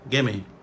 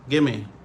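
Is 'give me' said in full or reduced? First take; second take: reduced; reduced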